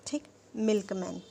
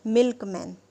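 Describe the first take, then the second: First: Said in the usual way. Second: milkman said much louder, stressed whole; emphatic example word. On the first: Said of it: "अब milkman मुझे बताना है". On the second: Shown as a demonstration. Teacher announcing example word to class, loud emphasis. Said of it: "जैसे".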